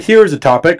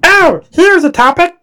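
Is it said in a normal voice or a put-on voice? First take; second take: normal; put-on. First: It is said in his normal voice. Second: It is said in a put-on reading voice.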